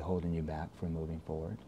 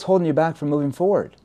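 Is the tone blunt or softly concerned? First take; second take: softly concerned; blunt. First: The voice sounds soft and concerned. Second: The voice sounds blunt and confrontational. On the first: The speaker genuinely cares about the problem. The speaker calls it right. "you soft concern tone" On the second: The listener feels pressured and challenged. The speaker calls it wrong. "they're gonna get defensive now"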